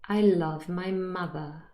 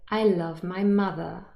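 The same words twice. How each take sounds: No difference in how they are said.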